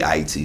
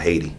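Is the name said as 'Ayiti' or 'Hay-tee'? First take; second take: Ayiti; Hay-tee. First: The name is said as Ayiti, without an H. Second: The name is said as Hay-tee, with an H. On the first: This is the true native name. The speaker calls it right. "it's really Haiti" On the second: This is an imposed, distorted name. The speaker calls it wrong. "it's not Haiti"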